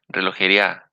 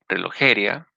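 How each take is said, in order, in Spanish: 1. El acento está en la última sílaba, a. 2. El acento está en la tercera sílaba, je. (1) "o en la A" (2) "o en la E"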